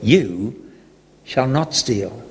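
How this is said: It sounds like a reassuring promise.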